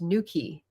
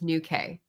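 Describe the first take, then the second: First: The word ends with a 'key' sound. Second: The word ends with a plain 'k' sound. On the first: This is how locals say it. "I think this is pronounced Nuki" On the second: This is how an American would say it. "An American would pronounce this Nuke"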